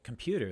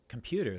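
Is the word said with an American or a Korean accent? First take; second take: American; American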